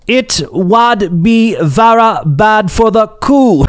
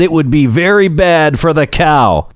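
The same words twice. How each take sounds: First: Slow, high put-on Northumberland accent; hammed-up Northumberland farmer drawl. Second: Said in the usual way. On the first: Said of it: "with his thick Northumberland accent". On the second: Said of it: "I probably botched that accent".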